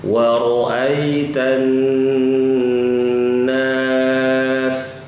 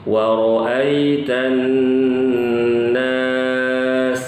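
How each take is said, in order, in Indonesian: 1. N yang digandakan dibaca panjang dan sengau. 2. N yang digandakan dibaca panjang dan sengau.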